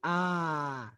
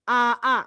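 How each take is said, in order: First: One lengthened vowel is said. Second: Two short vowels are said separately. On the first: This is how it is actually read. "maka dipanjangkan itu bacanya menjadi A" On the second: This is the underlying form. "Itu asalnya gitu"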